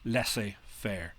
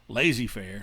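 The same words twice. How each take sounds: First: It is pronounced with a French accent. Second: It is pronounced with an English accent. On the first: The speaker calls it right. "that's how you pronounce it, by the way, in, en français" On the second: The speaker calls it wrong. "not laissez or laissez-faire, like my high school uh, teacher used to pronounce it"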